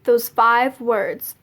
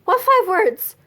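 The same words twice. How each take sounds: First: Slow, deliberate answer; measured, unhurried imitation of mom; pointed retold reply. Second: High-pitched retold panicky question; mock nervous question, pitched up; freaking out. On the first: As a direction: draw the words out slowly, knowingly. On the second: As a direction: ask it higher, feigning alarm. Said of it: "I'm freaking out. And I was just like".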